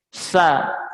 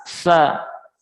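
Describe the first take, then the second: Both takes have the same delivery.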